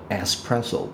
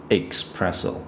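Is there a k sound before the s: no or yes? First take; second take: no; yes. First: The word starts with a plain s sound. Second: The word starts with a throaty ks sound. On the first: The speaker calls it right. "espresso 不是expresso" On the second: The speaker calls it wrong. "就是喉咙那边的x"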